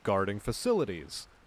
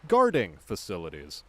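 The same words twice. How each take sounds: First: The stress falls on the word facilities. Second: The stress falls on the word guarding. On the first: The job of protecting facilities. The speaker calls it right. "she should have just said" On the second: Facilities where guarding is manufactured. The speaker calls it wrong. "as opposed to"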